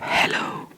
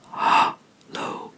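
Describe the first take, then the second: First: The first vowel is a short 'eh' sound. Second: The first vowel is a drawn-out 'ah' sound. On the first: "in English, I wrote down hello" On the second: "drawn out A sound"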